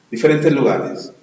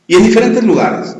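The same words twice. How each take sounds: First: Said in the usual way. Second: Diferentes pushed higher and louder; raised, emphatic diferentes; stress on diferentes. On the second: Shown as a demonstration. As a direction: lean on diferentes.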